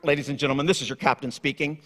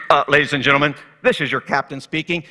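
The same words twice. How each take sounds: First: Lower, softer captain's announcement voice; airline captain. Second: A pilot starting an announcement; airline captain. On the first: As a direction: sound like a pilot on the intercom. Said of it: "when the captain goes". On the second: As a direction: lower captain voice with a hesitant "Uh". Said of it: "The captain comes on the intercom and says". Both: Retold or imitated.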